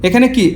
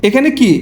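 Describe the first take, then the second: No difference in how they are said.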